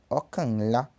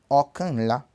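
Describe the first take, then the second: First: The n sound drops and the words merge. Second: The n sound drops and the words merge.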